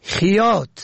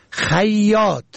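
First: خیاط as "khiyot", with "i" after the خ; first vowel kasra. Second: خیاط as "khayyot", with "a" and doubled y; first vowel fatha. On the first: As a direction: say خیاط as khi-YOT. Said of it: "به کسر اول". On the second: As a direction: say خیاط as khay-YOT. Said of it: "به فتح اول". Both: Shown as a demonstration.

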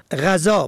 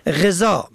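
First: غذا said as ghaza, a first; fatha on first letter. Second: غذا said as gheza, e first; kasra on first letter. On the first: Teacher contrasting homographs, ghaza with fatha. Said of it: "به فتح اول". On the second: Teacher contrasting homographs, gheza with kasra. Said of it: "به کسر اول". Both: Shown as a demonstration.

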